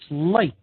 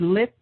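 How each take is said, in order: First: The vowel is a long I sound. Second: The vowel is a short I sound. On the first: "if you pronounce it with a long I" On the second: "you could say lit"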